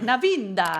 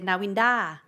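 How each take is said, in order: First: The name is said the Italian way. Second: The name is said the common Thai way. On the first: This is how the name was meant to be said. The speaker calls it right. "Only Italian read, read it right. They, they go like" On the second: This is how most locals say the name. The speaker calls it wrong. "Thai people always mispronounce it. They say"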